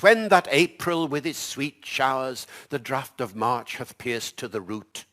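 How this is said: It is said in modern English pronunciation.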